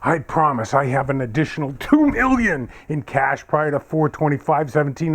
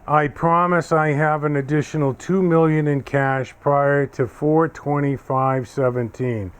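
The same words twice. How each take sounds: First: It is read with strong feeling. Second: It is read flatly, without feeling.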